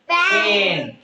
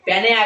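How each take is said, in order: First: The final e is silent, giving one syllable. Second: The final e is sounded as a second syllable. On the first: The speaker calls it right. "ಯಾ ಅನ್ನು ಬದ್ಲಿ ಎ ಅಂತ ಉಚ್ಚಾರ ಮಾಡ್ಬೇಕು" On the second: The speaker calls it wrong. "ಓದುವಾಗ ನಾವು ಪೆನೆ ಅಂತ ಓದಬಾರ್ದು"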